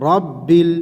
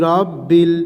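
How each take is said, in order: Both takes have the same delivery.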